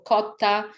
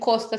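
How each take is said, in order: First: The s sound before the t is dropped. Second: The s sound before the t is pronounced. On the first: This is how people on the coast say it. "las personas eliden el sonido de la S" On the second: This is how people in the Andean regions say it. "no dicen costa"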